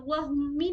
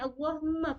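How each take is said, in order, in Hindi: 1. शब्द 'ee' स्वर से खत्म होता है। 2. शब्द 'ah' स्वर से खत्म होता है। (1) "नहीं पढ़ेंगे" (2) "पढ़ेंगे"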